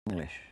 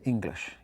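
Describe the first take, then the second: First: It is said with an Irish-sounding accent. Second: It is said with a standard English accent.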